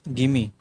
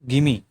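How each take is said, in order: The two takes are said the same way.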